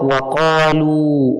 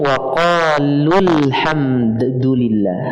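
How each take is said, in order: First: It stops after waqalu, with a long final vowel. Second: The short final vowel runs straight into the next word. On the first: The reciter pauses at this word. "Kalau kita waqaf" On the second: The reciter continues without pausing. "kalau disambung"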